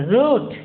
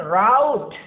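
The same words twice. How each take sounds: First: Route said as root, rhymes with boot. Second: Route said as rout, rhymes with out. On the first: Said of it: "here we pronounce it as root". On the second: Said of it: "British English we pronounce it as". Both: Shown as a demonstration.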